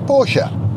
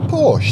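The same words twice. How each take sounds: First: The final vowel is pronounced. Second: The final vowel is silent. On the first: The speaker calls it right. "it's got an E on the end, it's Porsche" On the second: The speaker calls it wrong. "People call them a Porsche"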